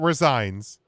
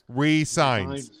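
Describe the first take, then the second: First: It begins with a short 'rih' and a z sound. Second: It begins with a long 'ree' and an s sound. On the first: He quits his job. The speaker calls it wrong. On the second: He signs a new contract. The speaker calls it right.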